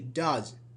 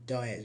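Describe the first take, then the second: First: The ending is a plain z sound. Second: The ending has an extra iz syllable. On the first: The speaker calls it right. "we say does" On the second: The speaker calls it wrong. "We don't say"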